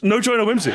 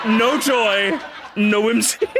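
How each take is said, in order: First: Proclaimed shout. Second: Cracking up mid-catchphrase; laughing. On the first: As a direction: belt out the catchphrase. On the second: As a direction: say it again through laughter. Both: Shown as a demonstration. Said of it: "I wanna say it, gamers".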